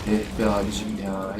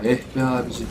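First: Low, slow, drawn-out groan of despair; weary sigh. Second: Said in the usual way. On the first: Real, not acted. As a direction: sigh it out slowly and low, fed up.

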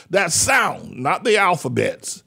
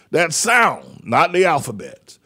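The two takes are said the same way.

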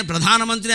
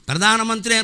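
First: ప్రధానమంత్రి with an aspirated "dha"; proper aspiration. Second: ప్రధానమంత్రి with a plain "da" for "dha"; missing aspiration. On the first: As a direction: say ప్రధానమంత్రి as pradhaana-mantri. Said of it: "ప్రధానమంత్రి అనగలిగిన వాళ్ళే". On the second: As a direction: say ప్రధానమంత్రి as pradaana-mantri. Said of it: "ఒత్తులు ఉండవు ఇక్కడ". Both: Shown as a demonstration.

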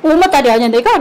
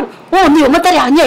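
First: Said in the usual way. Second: Louder, higher mock mother retort; mom answering back. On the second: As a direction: play mom snapping back at her daughter. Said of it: "이러". (엄마 흉내, 더 크게 받아치며)

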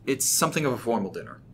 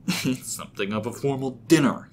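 First: Said in the usual way. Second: Exaggerated mocking mimicry. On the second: A narrator's reading. James mimicking Rob's dinner remark, mockingly. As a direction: parrot the line back with scorn. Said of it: "he said in a mocking tone".

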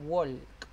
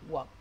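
First: "walk" with the L sounded; wrong learner pronunciation. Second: "walk" with a silent L; "walk" said without any L; correct pronunciation. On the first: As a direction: say "walk" pronouncing the L clearly. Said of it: "Ustedes no dicen". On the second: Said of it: "ustedes dicen walk". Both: Shown as a demonstration.

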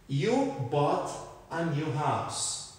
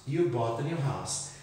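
First: Slow model sentence. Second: Said in the usual way. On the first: Shown as a demonstration. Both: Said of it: "essa palavrinha aqui".

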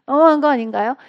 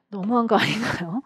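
First: Louder, laughing as she repeats it; laughing tease. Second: Said in the usual way. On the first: Shown as a demonstration. Teacher teasing students who miss a repeated question, laughing louder. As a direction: laugh it out as a playful jab.

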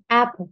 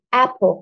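First: "Apple" with "ap" strong and "ple" very light; stress on ap. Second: "apple" with the weight on "ap", "ple" light; stress on ap. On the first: Teacher repeating the model word for students: "Apple" with "ap" strong. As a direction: punch "ap", let "ple" fade. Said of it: "Cái âm phổ nó rất là nhẹ, còn âm ap thì người ta nhấn rất là mạnh". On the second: Teacher showing the class: "apple" with stress on "ap". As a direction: hit "ap" hard, glide "ple". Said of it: "người ta đọc là apple". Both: Shown as a demonstration.

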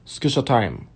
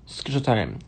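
No difference in how they are said.

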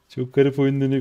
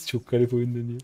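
First: "Çok garip oyun dönüyor" said through a laugh, louder; chuckling at the weird game. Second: Said in the usual way. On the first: Real, not acted. Streamer laughing at how weird the game is going.

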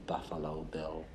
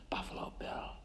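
First: Said in the usual way. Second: Breathy hush on "Buffalo Bill"; "Buffalo Bill" barely voiced; whisper. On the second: Menacing aside about the killer.

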